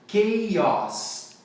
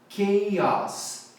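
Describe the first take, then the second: Both takes have the same delivery.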